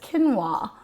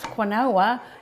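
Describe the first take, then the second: First: The word is pronounced differently from its spelling. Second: The word is pronounced as it is spelled. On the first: The speaker calls it right. "but it's quinoa" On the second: The speaker calls it wrong. "I'm pronouncing it exactly how it reads on the package"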